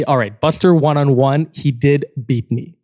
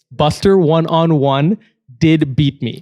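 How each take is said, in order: First: Said in the usual way. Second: "Buster one-on-one did beat me" said slowly, each word weighted; slow emphatic admission. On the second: Shown as a demonstration. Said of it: "So I'm being honest here".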